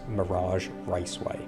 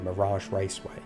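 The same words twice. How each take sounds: First: The name is said slowly and carefully. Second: The name is said quickly.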